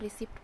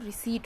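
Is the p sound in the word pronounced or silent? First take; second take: pronounced; silent. First: The p sound is clearly pronounced. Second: The p sound is left silent. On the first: The speaker calls it wrong. "हम रिसिप्ट पढ़ते थे" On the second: The speaker calls it right. "उसमें पी जो होता है वो silent होता है"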